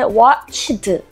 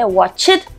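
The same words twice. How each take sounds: First: The word is split into three syllables. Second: The word is split into two syllables. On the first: "삼음절로 나눠서 읽는데" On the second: "두음절로 하시는 분도 있고요"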